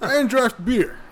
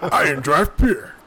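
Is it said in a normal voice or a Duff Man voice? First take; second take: normal voice; Duff Man. First: It is said in his normal voice. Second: It is said imitating Duff Man's voice.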